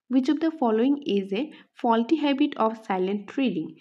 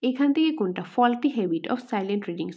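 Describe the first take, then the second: First: Reads the quiz question out slowly; slow, even question reading. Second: Said in the usual way. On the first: Shown as a demonstration. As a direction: dictate the question word by word.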